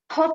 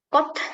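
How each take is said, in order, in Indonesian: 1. Konsonan pertama berhembus. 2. Konsonan terakhir dilepas dengan hembusan. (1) "K-nya tidak pakai H ya" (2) "Dan T-nya tidak pakai H juga"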